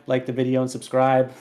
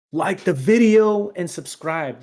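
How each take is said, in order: First: Said in the usual way. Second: Slow and louder, every word of "Like the video and subscribe" leaned on; drawn-out emphatic plug. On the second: Shown as a demonstration. Host repeating the plea to listeners, slow, louder, emphatic. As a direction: stretch out "Like the video and subscribe" higher and louder, hammering it home.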